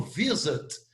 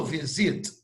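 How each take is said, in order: First: "visit" stressed on VI, weak second vowel; first-syllable stress. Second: "visit" stressed on SIT, full second vowel; wrong final-syllable stress. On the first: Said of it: "Eu falo visit". ("visit" com a primeira sílaba tônica) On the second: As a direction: put the weight on SIT in "visit". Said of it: "eu não falo visit". ("visit" com a última sílaba tônica) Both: Shown as a demonstration.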